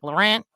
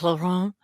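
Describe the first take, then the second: First: The name is said with a Midwestern American pronunciation. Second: The name is said with a French pronunciation. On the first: "my like Midwestern, like Michigan trash family's always like" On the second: "the fancy French way"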